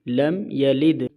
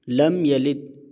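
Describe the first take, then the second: First: The final d is released with a slight bounce. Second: The final d is cut short without a bounce. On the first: The speaker calls it right. "सही इस तरह पढ़ा जाएगा ... दाल पर हल्की सी जुम्बिश होगी" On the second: The speaker calls it wrong. "अक्सर पढ़ा जाता है लम यलिद, लम यलिद, जो कि गलत है"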